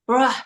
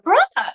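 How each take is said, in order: First: It sounds annoyed and let down. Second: It sounds excited and happy.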